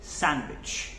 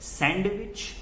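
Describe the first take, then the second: First: The d sound is left out completely. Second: The d sound is pronounced in the middle. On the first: The speaker calls it right. "D is silent here" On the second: The speaker calls it wrong. "We do not call it sandwich"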